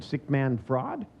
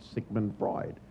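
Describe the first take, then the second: First: "Sick man fraud" said slowly with a laugh, punning on Sigmund Freud; "Sick man fraud" drawn out, rising as a question; mock mishearing. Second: "Sigmund Freud" said plainly and slowly as the name; "Sigmund Freud" with the normal name sounds; proper name. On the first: Bandler mishearing the name, "Sick man fraud" drawn out, amused. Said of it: "And I said". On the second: Retold or imitated. Psychologist citing Freud, "Sigmund Freud" said plainly. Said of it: "if you were better educated".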